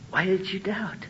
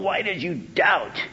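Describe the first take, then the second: First: It is said in a soft, reassuring tone. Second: It is said in a harsh, scolding tone. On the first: The doubter is loved and will be kept safe. The speaker calls it right. "but don't worry, I got you. And I think that's the attitude of the Lord" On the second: The doubter deserves contempt and punishment. The speaker calls it wrong. "you denying idiot? I ought to let you sink"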